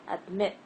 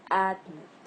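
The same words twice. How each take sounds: First: AdMIT, weight on MIT; stress on second syllable. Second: ADmit, AD punched louder, MIT dropped; wrong first-syllable stress. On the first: Teacher gives the right version, adMIT stressed on the second part. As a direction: hit the MIT of admit, AD kept light. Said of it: "I'm stressing the second part". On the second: Teacher shows what it is not, ADmit stressed on the first part. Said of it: "not admit". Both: Shown as a demonstration.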